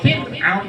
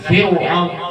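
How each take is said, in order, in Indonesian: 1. Nama itu diucapkan tipis dan ringan. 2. Nama itu diucapkan berat dan penuh. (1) "Tipis Fir'aun" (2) "bukan Fir'aun"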